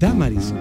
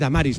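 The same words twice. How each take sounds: First: The stress is on the first syllable. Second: The stress is on a later syllable. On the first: The speaker calls it right. "con la tilde en la, esdrújula" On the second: The speaker calls it wrong. "Mucha gente dice Damaris, no es lo mismo"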